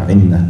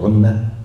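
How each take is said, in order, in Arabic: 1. الحركة الأولى كسرة. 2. الحركة الأولى ضمة. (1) "مضبوطة عنة بالكسر" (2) "في بعض اللغات يعني تضبط عنة"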